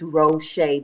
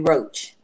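First: The name ends with an 'sh' sound. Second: The name ends with a 'ch' sound. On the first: The speaker calls it right. "The C, the H, and the E make the Shea sound" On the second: The speaker calls it wrong. "most people pronounced it wrong. They would call me Roach"

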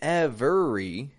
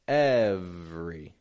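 First: The middle vowel is kept, giving three syllables. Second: The middle vowel is dropped, giving two syllables. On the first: The speaker calls it wrong. "how I'm not saying every, every" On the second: The speaker calls it right. "Kind of dropping that E that's in the middle right out of the word"

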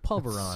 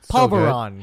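First: It is said with an American pronunciation. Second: It is said with a Filipino pronunciation.

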